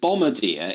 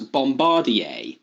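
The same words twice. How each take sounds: First: It is said with a simplified English pronunciation. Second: It is said with a precise foreign pronunciation. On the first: "once called" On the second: "is now being referred to as"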